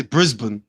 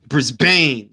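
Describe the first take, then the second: First: "Brisbane" as BRIZ-bun, weak second syllable; their pronunciation. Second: "Brisbane" as briz-BANE, full second syllable; long A. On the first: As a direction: reduce the end of Brisbane to "bən". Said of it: "they say Brisbane". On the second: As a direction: make the end of Brisbane rhyme with rain. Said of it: "It's A, right?". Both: Shown as a demonstration.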